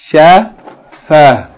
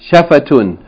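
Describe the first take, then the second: First: The word ends on a bare vowel without 'tun'. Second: The word ends with a full 'tun' syllable. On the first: The reading stops on this word. "It would be pronounced Shafa" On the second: The reading continues on to the next word. "We said we're going to always read it in the continual mode"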